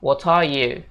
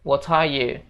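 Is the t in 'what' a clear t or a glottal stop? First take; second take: clear t; clear t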